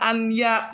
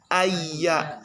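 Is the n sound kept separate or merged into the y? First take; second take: separate; merged. First: The n is pronounced clearly before the y. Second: The n merges into a doubled y sound. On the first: The speaker calls it wrong. "bukan dibaca an ya" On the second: The speaker calls it right. "tapi ayya"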